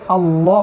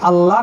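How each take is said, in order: First: The L sound is heavy and thick. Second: The L sound is light and thin. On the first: The speaker calls it right. "পুরু করে পড়তে হয়, মানে মোটা করে পড়তে হয়" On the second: The speaker calls it wrong. "আল্লাহ না বলে"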